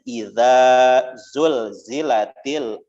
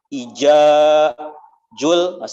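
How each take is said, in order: First: The key consonants are said with a z sound. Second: The key consonants are said with a j sound. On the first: The speaker calls it right. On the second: The speaker calls it wrong.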